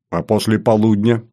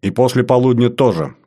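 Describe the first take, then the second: First: «полудня» lifted as an open question; anxious follow-up with «полудня» left hanging upward. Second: «полудня тоже» falling to a considered close; thoughtful answer. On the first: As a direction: press for more, voice rising on «полудня». Follow-up question about the afternoon. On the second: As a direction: confirm after a moment's thought, settling down after «полудня». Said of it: "задумавшись буквально на несколько секунд". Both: Acted.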